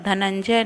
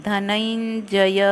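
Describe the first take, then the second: First: धनंजय said quickly as dhanandje, final य dropped; wrong pronunciation. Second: धनंजय slowly as dha-nan-ja-ya, every syllable full; correct pronunciation. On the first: Teacher showing students the wrong way to say धनंजय. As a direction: clip धनंजय so the last syllable blurs. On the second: Teacher showing students the right way to say धनंजय. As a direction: stretch धनंजय out and finish the final य. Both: Shown as a demonstration. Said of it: "धनंजय नहीं".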